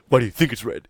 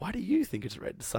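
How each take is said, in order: First: It is said in an aggressive tone. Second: It is said in a gentle tone.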